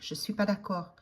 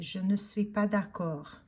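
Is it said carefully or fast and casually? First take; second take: fast; carefully. First: It is said fast, with the ne dropped. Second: It is said carefully, every word clear.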